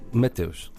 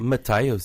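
First: The name is said with native Portuguese pronunciation. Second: The name is said with a strong foreign accent. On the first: The speaker calls it right. "Eu disse" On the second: The speaker calls it wrong. "ela falava inglês com um sotaque muito forte"

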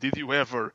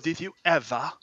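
First: It is said in a plain American accent. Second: It is said in a snobbish upper-class English accent. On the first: "em vez de dizerem" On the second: "imitando aquilo que para os americanos era a snobeira, que é os ingleses"

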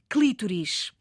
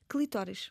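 First: The stress is on the first syllable. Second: The stress is on the second syllable. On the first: This is the historically original form. "a palavra esdrúxula clítoris" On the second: This form is accepted through common usage. "mas aceita-se por força do uso"

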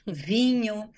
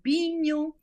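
First: The word begins with a V sound. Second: The word begins with a B sound. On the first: This is the standard way taught in class. "você nos ensina a falar com os Vs" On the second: This is the northern regional way most locals speak. "a maioria das pessoas fala vinho"

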